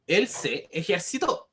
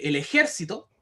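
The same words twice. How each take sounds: First: "ejercitó" slowly, stressed e-jer-ci-TÓ; teacher's slow demo of "ejercitó", voice loaded on TÓ; stress on last syllable. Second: "ejército" stressed e-JÉR-ci-to; teacher's demo of "ejército", voice loaded on JÉR; stress on second syllable. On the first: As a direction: draw it out and land on the "tó" of "ejercitó". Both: Shown as a demonstration. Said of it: "Es muy distinta decir".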